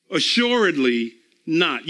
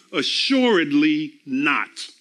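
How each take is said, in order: First: Said in the usual way. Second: Slow, weighty. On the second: Shown as a demonstration.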